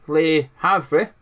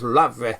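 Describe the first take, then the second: First: The name is read following its English spelling. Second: The name is said in a shortened French style. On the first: "English spelling way" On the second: "I've always thought it was Lavre. That's how you pronounce it"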